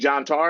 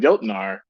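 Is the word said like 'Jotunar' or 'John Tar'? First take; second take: John Tar; Jotunar. First: It is said like 'John Tar', with two syllables. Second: It is said like 'Jotunar', with three syllables. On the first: This is how the clerk insisted it was pronounced. "you mean John Tar?" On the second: This is how the teller thought it was pronounced. "because I thought that's how it's pronounced"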